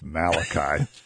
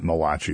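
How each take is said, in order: First: The name is said with an ordinary English ending. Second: The name is said with an Italian-sounding ending. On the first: The speaker calls it right. "it's Malachi" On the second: The speaker calls it wrong. "that's not Malachi"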